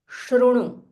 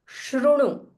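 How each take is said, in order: The two takes are said the same way.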